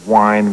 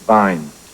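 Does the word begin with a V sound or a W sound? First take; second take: W sound; V sound. First: The word begins with a W sound. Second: The word begins with a V sound. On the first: The speaker calls it right. "instead of wine" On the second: The speaker calls it wrong. "we say Wein ... the W becomes a V sound"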